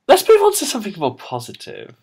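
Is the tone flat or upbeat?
upbeat. The tone sounds upbeat and cheerful. "Try again"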